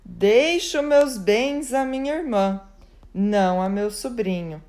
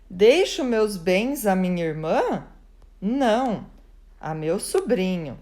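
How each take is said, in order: First: The first part is a statement, with 'não' joined to what follows. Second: The first part rises like a question, then 'não' stands alone. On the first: The goods go to the sister, not the nephew. "A irmã chegou em seguida e pontuou assim" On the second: The goods go to the nephew, not the sister. "Colocou ponto de interrogação"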